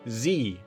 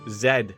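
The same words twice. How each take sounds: First: The letter is said the American way, 'zee'. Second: The letter is said the Canadian way, 'zed'.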